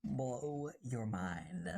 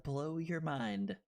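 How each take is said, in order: First: Very slow, low "Blow your mind"; drawn-out low echo for effect; mock-mystical echo. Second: Said in the usual way. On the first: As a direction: draw out each word low and slow. Echoes own phrase for effect.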